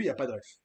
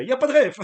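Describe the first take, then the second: First: Said in the usual way. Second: Put-on loud Sentier accent with pitch pushed up. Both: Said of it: "J'ai pris l'accent du sentier".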